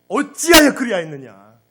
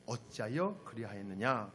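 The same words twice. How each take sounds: First: Much louder, wailing accusation; anguished reproach. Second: Said in the usual way. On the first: Acted. God confronting wayward Israel, loud anguished reproach. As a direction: cry it out as a wounded God. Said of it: "하나님이 이 심정을 한번 느껴보세요".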